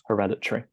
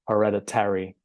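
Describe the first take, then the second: First: The word is said with four syllables. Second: The word is said with five syllables. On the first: "we only make it four syllables" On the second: "in American English, you actually make this five syllables"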